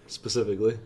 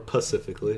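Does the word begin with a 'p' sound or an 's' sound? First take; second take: s sound; p sound. First: The word begins with an 's' sound. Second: The word begins with a 'p' sound.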